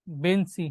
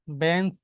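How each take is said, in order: First: "বেঞ্চি" as ben-si, ending on i; added final vowel. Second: Said in the usual way. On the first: Shown as a demonstration. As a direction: finish "বেঞ্চি" with a clear i sound. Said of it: "একটা রস্যইকার আসছে". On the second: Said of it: "যদি আমরা একটা শব্দ দেখি".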